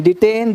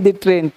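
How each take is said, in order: First: Said in the usual way. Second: डिट्रेन with a rolled r slipped in after the t; extra r sound. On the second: Shown as a demonstration. Teacher bends the word to hint at a train for students. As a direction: say डिट्रेन so the word ट्रेन rings out inside it. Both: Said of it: "ट्रेन उड़ाने की धमकी दिया".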